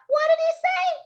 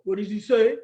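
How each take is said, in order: First: Very high squealed question; high-pitched girlish call; girls yelling. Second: Put-on boy voice, low register; low-pitched boyish question; boys asking. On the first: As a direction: shriek it like little girls. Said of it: "The girls yelled out". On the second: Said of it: "The boys wanted to know". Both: A narrator's reading.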